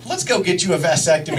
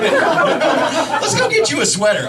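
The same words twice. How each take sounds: First: Quick, matter-of-fact suggestion; brisk, unexcited proposal; scary-proposal energy. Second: High, drawn-out upbeat invitation; lifted, inviting sing-out; completely different energy. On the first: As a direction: toss it out fast and low-key. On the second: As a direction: pitch it up like a fun outing. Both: Retold or imitated. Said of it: "the energy's completely different".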